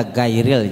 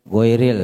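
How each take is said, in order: First: "gairil" said with an open ai; unchanted "gairil", first vowel unrounded; light gai vowel. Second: "Goiril" said with o in the first syllable; unchanted "Goiril", first vowel rounded. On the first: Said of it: "jangan dibaca". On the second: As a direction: say "Goiril" as goy-ril. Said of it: "Baca goir aja". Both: Shown as a demonstration.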